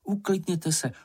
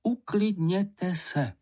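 First: Higher-pitched, quick first plea to calm down; mild soothing request. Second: Higher-pitched, very slow plea to calm down; drawn-out, insistent soothing. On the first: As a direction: hush them at a normal pace. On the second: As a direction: stretch it out syllable by syllable. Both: A narrator's reading. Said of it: "pravila maminka".

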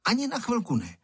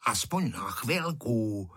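First: High-pitched, emphatic no; firm refusal. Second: Slow, drawn-out wheedling; pleading. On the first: Boy guarding the kite refuses his friend, firmly. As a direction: refuse outright, voice jumping up. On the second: Freckled boy begging for the kite, pleading. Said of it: "škemral Ferda". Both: A narrator's reading.

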